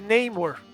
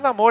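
First: The first syllable sounds like 'ney'. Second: The first syllable sounds like 'na'. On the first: The speaker calls it right. "é Namor... o nome certo dele é Neymar" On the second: The speaker calls it wrong. "a pronúncia certa não é Namor"

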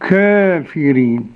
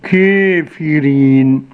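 First: The vowel is between open A and E. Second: The vowel is tilted fully toward E. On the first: "بالتقليل بين الفتح والإمالة" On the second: "بالإمالة الكبرى"

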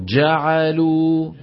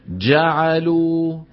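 The two takes are said the same way.

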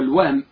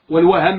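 First: The h sound has no vowel after it. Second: The h sound has a vowel after it. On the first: The mind jumps to something while intending something else. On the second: One misses the correct thing while intending it.

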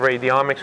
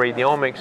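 First: It is said not rhyming with genomics. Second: It is said rhyming with genomics.

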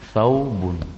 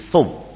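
First: The word is said in full with its ending. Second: The word is said quickly without its ending.

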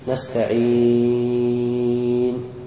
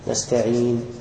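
First: The final long vowel is held very long. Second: The final long vowel is held briefly. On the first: "والطول" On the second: "بالقصر"

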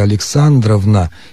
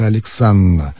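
First: Every syllable of the patronymic is fully pronounced. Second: The patronymic is said in a contracted form. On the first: The speaker calls it wrong. "вот произносить полностью «Александровна» не стоит" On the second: The speaker calls it right. "лучше «Александровна»"

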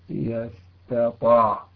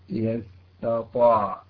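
Both takes have the same delivery.

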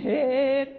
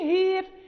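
First: The long vowel leans only slightly toward 'i'. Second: The long vowel leans strongly toward 'i'. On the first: "إذا قرينا لورش" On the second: "قالون يقرأها بالمحضة بالإمالة المحضة"

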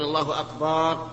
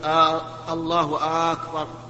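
First: The vowel after the b is drawn out. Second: The opening vowel of akbar is drawn out. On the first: "أن يمد الباء" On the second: "أن يمد الهمزة همزة أكبر"

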